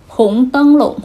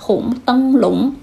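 First: The last syllable has a light neutral tone. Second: The last syllable has a rising second tone.

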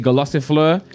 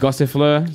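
First: An extra syllable is added near the start. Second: No extra syllable is added near the start. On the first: The speaker calls it wrong. "I always say Golossifleur" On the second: The speaker calls it right. "but it's actually Gossifleur"

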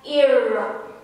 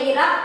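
First: The r is a soft English r. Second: The r is a plain Indonesian r. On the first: This is how foreigners say the name. "orang asing suka bilangnya atau panggil saya Ira" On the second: This is how the owner says the name. "nama saya Ira"

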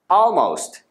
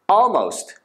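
First: The L sound is faintly hinted at. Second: The L sound is faintly hinted at.

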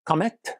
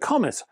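First: The name is said with French pronunciation. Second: The name is said with English pronunciation.

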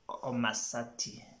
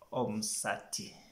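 First: There is a vowel between the 'm' and the 's'. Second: There is no vowel between the 'm' and the 's'. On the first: The speaker calls it wrong. "you find some people say Omasati. No, no, no" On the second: The speaker calls it right. "it should be Omsati"

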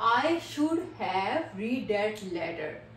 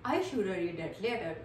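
First: 'Should have' is said in full with 'have'. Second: 'Should have' is reduced to 'shoulda'. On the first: "word क्या है हमारा, शुड हैव" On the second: "शुड हैव की जगह हम लोग क्या use करेंगे"

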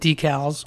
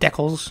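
First: It is said in the speaker's usual home pronunciation. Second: It is said in an overseas pronunciation.

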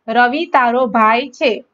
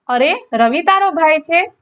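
First: It is said as a plain statement. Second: It is said as a surprised exclamation.

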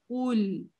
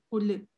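First: The tongue stays pressed, ending on a held l. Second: The tongue releases, adding a vowel after l. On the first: The speaker calls it right. "нет, куль" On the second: The speaker calls it wrong. "не отрывай, не кули"

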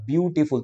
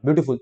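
First: The word is split with breaks between syllables. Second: The word is said quickly in one go. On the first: The speaker calls it right. "तोड़ो से" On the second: The speaker calls it wrong. "मैं ऐसे नहीं बोल रहा beautiful, तेजी से"

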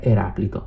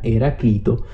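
First: The name is pronounced in the Greek style. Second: The name is pronounced in the Latin style. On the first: This follows the original Greek. "proprio lo vedo scritto in greco, dico sempre" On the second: This is the conventional form.

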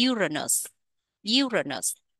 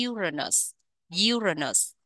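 The two takes are said the same way.

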